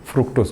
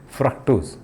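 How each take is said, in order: First: फ्रुक्टोज said with a short u after फ्र, the way some students read it; common mispronunciation. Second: फ्रक्टोज said with a short 'a' sound after फ्र, as frak-tose; correct pronunciation. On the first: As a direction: say फ्रुक्टोज with an 'u' vowel in the first syllable, as some people wrongly say it. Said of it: "कुछ लोग फ्रुक्टोज पढ़ते हैं". (फ्रुक्टोज को 'फ्रु' वाली गलत आवाज़ में बोलना) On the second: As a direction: give फ्रक्टोज its proper 'फ्र' plus 'a' first syllable, cleanly. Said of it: "वो क्या है?". (फ्रक्टोज का सही उच्चारण, 'फ्रक' वाली आवाज़ में)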